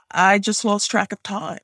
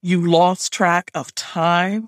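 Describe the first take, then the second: First: Higher-pitched, hesitant excuse; apologetic admission; meek excuse. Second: Slow, incredulous echo; drawn-out disbelieving question. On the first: Acted. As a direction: offer a lame explanation to a superior. Narrator's excuse, repeated by grandmother. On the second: A narrator's reading. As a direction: repeat it slowly in disbelief. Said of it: "sounding incredulous".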